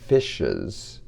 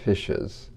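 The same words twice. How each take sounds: First: The word is articulated crisply with big mouth movements. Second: The word is mumbled with small mouth movements. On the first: The speaker calls it right. "if you say fishes" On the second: The speaker calls it wrong. "instead of fishes"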